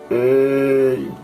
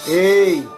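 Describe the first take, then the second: First: It is shouted at a low pitch. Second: It is shouted at a medium pitch.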